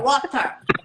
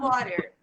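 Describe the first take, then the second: First: It is said with a British accent. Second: It is said with an American accent.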